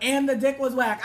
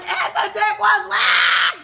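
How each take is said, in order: First: Said in the usual way. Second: High, loud, drawn-out shriek; screaming echo. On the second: Retold or imitated. Speaker echoes the girlfriend's complaint from the car, screaming. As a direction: scream it, punching every word.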